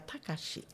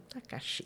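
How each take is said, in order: First: The pitch stays level across the name. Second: The pitch rises and falls across the name. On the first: "No Japão você seria Takashi... Plano, isso" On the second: "Quando muito ondulado"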